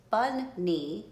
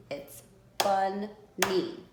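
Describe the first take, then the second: First: Said in the usual way. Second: "bunny" said slowly, syllable by syllable; split into beats. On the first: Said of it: "So if we did". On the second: Shown as a demonstration. Teacher to kids, counting beats in bunny, slow and syllabic. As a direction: stretch out "bunny" so each beat is heard. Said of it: "how many beats that has".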